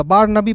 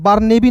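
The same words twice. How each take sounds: First: बार नबी said "baar nuh-bee"; "na" in second word. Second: बार नेबी said "baar NAY-bee"; "ne" in second word. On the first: Teacher giving the taught reading, बार नबी with "nuh". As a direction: say बार नबी with a short "uh" after N. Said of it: "बार नबी पढ़ते हैं". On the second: Teacher showing what not to read, बार नेबी with "nay". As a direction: say बार नेबी with a long "ay" after N. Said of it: "बार नेबी नहीं पढ़िएगा". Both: Shown as a demonstration.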